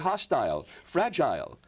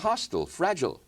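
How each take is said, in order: First: It is said with a British-style pronunciation. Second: It is said with an American pronunciation.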